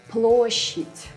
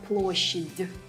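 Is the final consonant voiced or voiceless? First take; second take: voiceless; voiced. First: The final consonant is voiceless. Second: The final consonant is voiced. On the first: The speaker calls it right. "it will turn into its soft, voiceless counterpart" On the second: The speaker calls it wrong.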